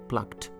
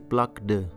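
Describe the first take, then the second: First: The ending is said as a plain t. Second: The ending is said as an extra syllable. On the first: The speaker calls it right. "This ed should be pronounced as t" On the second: The speaker calls it wrong. "You can't say plucked"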